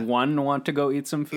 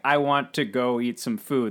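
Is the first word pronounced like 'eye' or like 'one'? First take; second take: one; eye. First: The first word sounds like 'one'. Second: The first word sounds like 'eye'. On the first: "every I in the movie is pronounced like a numerical one" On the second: "when a character is saying like"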